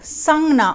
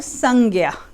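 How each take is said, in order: First: The word is said with a 'gn' sound. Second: The word is said with a 'gy' sound. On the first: This is the Gujarati pronunciation. "I have learned Jainism in Gujarati, so my pronunciation will be sangna" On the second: This is the Hindi pronunciation. "in Gujarati and Hindi"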